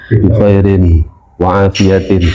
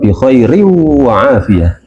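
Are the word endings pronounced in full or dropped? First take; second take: full; dropped. First: The word endings are pronounced in full. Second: The word endings are dropped at the end. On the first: The speaker calls it wrong. "Kalau bi khairin, wah itu nggak masuk tajwidnya Ustaz" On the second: The speaker calls it right. "Kalau saya [name] bi khairi wa afiyah"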